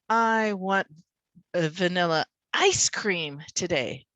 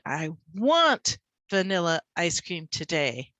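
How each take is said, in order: First: The words ice cream are stressed. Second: The word want is stressed. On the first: The speaker wants ice cream, not pudding. "not the pudding, the ice cream" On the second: The speaker really desires it, not just slightly. "I want it. I don't just, you know, have a slight desire"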